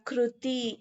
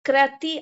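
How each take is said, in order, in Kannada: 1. ಮೊದಲ ಅಕ್ಷರ 'kru' ಅಂತ ಹೇಳ್ತಾರೆ. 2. ಮೊದಲ ಅಕ್ಷರ 'kra' ಅಂತ ಹೇಳ್ತಾರೆ. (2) "ಕ್ರತಿ ಅನ್ನಲ್ಲ"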